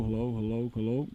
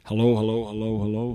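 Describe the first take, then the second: First: Muffled and rejected; back of the mic. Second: Full, direct into the mic; front of the mic. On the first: Teacher tests the dynamic mic, muffled from behind. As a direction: talk from behind the mic so it dulls. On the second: Teacher tests the dynamic mic, full from the front. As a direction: speak straight into the capsule. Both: Shown as a demonstration. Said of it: "You can hear the rejection of this guy here".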